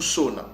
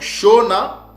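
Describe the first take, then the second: First: The word begins with a plain 's' sound. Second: The word begins with a 'sh' sound. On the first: "On peut aussi le prononcer Sona" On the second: "avec le son du S H"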